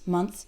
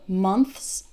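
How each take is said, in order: First: The word is said quickly. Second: The word is said slowly and carefully. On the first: "as I say it faster" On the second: "Try to take it slow"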